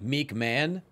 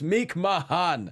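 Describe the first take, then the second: First: The second word is said as one syllable. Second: The second word is said as two syllables. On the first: The speaker calls it wrong. "she pronounced it Meek Man" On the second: The speaker calls it right. "Please pronounce it correctly. It's Meek Mahan"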